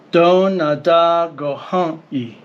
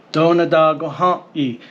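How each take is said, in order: First: "Do, na, da, go, ha, i" in an even beat, without pauses; rhythmic. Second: "Do, na, da, go, ha, i" quickly, with a steady beat; rhythmic. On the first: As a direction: chant the syllables rhythmically. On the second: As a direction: tap out the rhythm of the phrase. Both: Shown as a demonstration. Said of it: "It's rhythmic".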